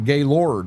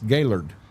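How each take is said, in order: First: The name is said the downstate way. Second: The name is said the local way. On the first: The speaker is not from the area. The speaker calls it wrong. "Everybody down here calls it Gaylord, and that is incorrect" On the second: The speaker sounds like a local. The speaker calls it right. "It's Gaylord"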